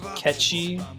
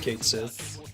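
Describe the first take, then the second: First: It sounds like 'Ketchi', as two short syllables. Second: It sounds like 'Kate Sith', as two separate words. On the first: This is the official pronunciation. "is supposed to be pronounced Ketchi" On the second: This is how most people say it. "everyone calls it Kate Sith"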